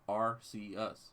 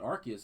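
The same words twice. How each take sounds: First: The first syllable sounds like 'ar' without a 'k'. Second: The first syllable sounds like the word 'ark'. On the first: The speaker calls it right. "it's actually pronounced Arceus" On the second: The speaker calls it wrong. "some people that seem to call it Arceus, and that's not how it's pronounced"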